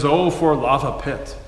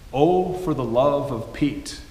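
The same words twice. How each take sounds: First: Boy imitating great-grandpa's old country accent. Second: Said in the usual way. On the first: Boy asking father about the phrase, old country accent. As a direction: quote the old country accent, lava pit slurred together. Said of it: "in his old country accent". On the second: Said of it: "It's his way of saying".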